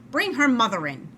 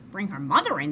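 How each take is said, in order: First: Louder, firm command as the doctor; doctor's order. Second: Plain, puzzled echo of the order; Amelia repeating. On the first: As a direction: give it as the impatient doctor. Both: A narrator's reading.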